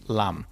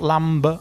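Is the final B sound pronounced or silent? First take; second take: silent; pronounced. First: The final B sound is silent. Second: The final B sound is pronounced. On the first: The speaker calls it right. "it's lamb" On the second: The speaker calls it wrong. "don't pronounce the B. It's not lamb"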